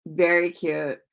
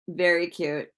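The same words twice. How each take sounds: The two takes are said the same way.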